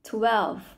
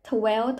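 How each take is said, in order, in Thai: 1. คำนี้มีเสียง v ชัดตอนท้าย 2. คำนี้ไม่มีเสียง v ชัดตอนท้าย (1) "น้องต้องมีเสียง, for, fun" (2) "น้องไม่ใช่"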